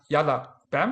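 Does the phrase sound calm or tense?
tense. It is said tensely, not in a relaxed voice. The speaker calls it wrong. "not yalla bam"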